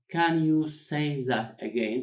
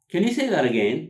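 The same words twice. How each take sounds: First: Drawn out, each word set apart, raised pitch; very slow word-by-word model. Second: Higher and louder, words run together; natural linked delivery. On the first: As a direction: stretch every word for learners. Teacher repeats it word by word. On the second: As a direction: model it as one quick connected phrase. Teacher models natural linked phrase. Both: Shown as a demonstration.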